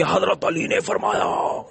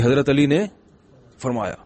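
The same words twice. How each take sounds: First: Stretched-out, strained imitation of a screaming sermon; mock preacher's shouting. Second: Said in the usual way. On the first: Imam yelling his sermon at a seated audience, mock shouting. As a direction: mimic an imam bellowing into a loudspeaker, drawing out the words. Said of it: "اتنی زور زور سے loud speaker پہ چیخ چیخ کے". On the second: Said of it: "حضرت علی نے بھی تو آرام سے ہی فرمایا".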